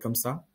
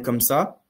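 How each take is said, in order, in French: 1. La voix est faible et discrète. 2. La voix est forte et puissante. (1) "quelqu'un qui parlait peut-être comme ça" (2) "il va commencer à parler comme ça"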